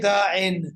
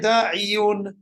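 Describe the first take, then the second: First: The word ends with a short 'in' sound. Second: The word ends with a 'yun' sound. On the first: The speaker calls it right. "you say da'in" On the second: The speaker calls it wrong. "you don't say da'iyun"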